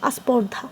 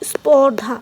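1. যুক্তব্যঞ্জনের আগে একটি স্বরধ্বনি যোগ করা হয়। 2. শব্দটি সরাসরি যুক্তব্যঞ্জন দিয়ে শুরু হয়। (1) "এটাই বলি আমরা আস্পর্ধা" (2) "এই স্পর্ধা শব্দটাকে কি বলতে পারি আমরা?"

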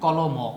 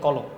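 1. শব্দের শেষে একটা স্বরধ্বনি যোগ হয়। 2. শব্দটা m ধ্বনিতে শেষ হয়। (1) "আমরা বলি না কলম" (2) "আমরা বলি কলম"

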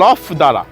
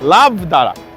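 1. প্রথম শব্দটি 'lof' এর মতো উচ্চারিত হয়, f দিয়ে শেষ। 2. প্রথম শব্দটি 'love' এর মতো উচ্চারিত হয়, v দিয়ে শেষ। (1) "এখানকার লোকাল অ্যাকসেন্টে এটা লফ দারা হয়ে গেছে" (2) "কিন্তু অ্যাকচুয়ালি এটা হচ্ছে লাভ দারা"

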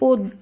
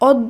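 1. প্রথম স্বরধ্বনিটি একটি বন্ধ 'o' ধ্বনি। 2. প্রথম স্বরধ্বনিটি একটি খোলা 'aw' ধ্বনি। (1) "শব্দটি শুদ্ধ উচ্চারণ হবে অদ্য" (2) "একইভাবে অদ্য নয়"

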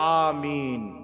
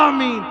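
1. এটি জোরে, মিষ্টি ও স্পষ্ট স্বরে বলা হয়েছে। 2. এটি কর্কশ, তীক্ষ্ণ চিৎকারের মতো করে বলা হয়েছে। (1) "জোরে হলো আমিন, প্রসিদ্ধ শুদ্ধ ভাষায় মিষ্টি ভাবে" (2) "এরা বলে আমিন, চিখড়ে বলে"

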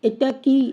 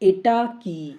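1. এটা আধো আধো, শিশুসুলভ স্বরে বলা হয়েছে। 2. এটা স্পষ্টভাবে স্বাভাবিক প্রাপ্তবয়স্ক কণ্ঠে বলা হয়েছে। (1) "শিশু আধো আধো স্বরে কথা বলতে পারছে, ... এইভাবে উচ্চারণ করছে" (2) "সঠিকভাবে উচ্চারণ করে শিখিয়ে দেবেন"

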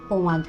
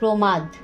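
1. 'r' বাদ যায় এবং তার জায়গায় 'o' স্বরধ্বনি বসে। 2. প্রথম ব্যঞ্জনের পরের 'r' স্পষ্টভাবে রাখা হয়।

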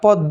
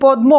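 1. 'ম' ধ্বনিটি উচ্চারিত হয়নি। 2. 'ম' ধ্বনিটি স্পষ্টভাবে উচ্চারিত হয়েছে। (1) "পদ্ম হবে" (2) "এটি পদ্ম হবে না"

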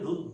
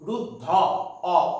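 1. শব্দটি সংবৃত ও দিয়ে শেষ হয়। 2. শব্দটি বিবৃত ও দিয়ে শেষ হয়। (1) "আমরা বলি রুদ্ধ" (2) "এইভাবে আমরা উচ্চারণ করি না"

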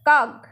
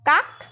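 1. শব্দটি ঘোষ g ধ্বনি দিয়ে শেষ হয়েছে। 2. শব্দটি অঘোষ k ধ্বনি দিয়ে শেষ হয়েছে। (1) "স্বরতন্ত্রী বা কণ্ঠনালীতে ... কম্পন সৃষ্টি হচ্ছে" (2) "অঘোষ ব্যঞ্জন ধ্বনির উদাহরণ"

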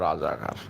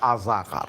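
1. শব্দটি র ধ্বনি দিয়ে শুরু। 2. শব্দটি স্বরধ্বনি দিয়ে শুরু, র বাদ গেছে।

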